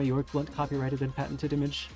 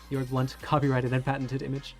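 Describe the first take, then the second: First: The phrase runs on with no pause after 'Blunt'. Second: There is a pause between 'Blunt' and 'copyrighted'. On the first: The speaker calls it wrong. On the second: The speaker calls it right.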